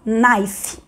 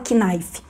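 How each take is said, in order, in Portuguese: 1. A palavra começa com som de n, K mudo. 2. A palavra começa com um k pronunciado. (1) "Então o K com N da palavra faca fala knife" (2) "não fala knife"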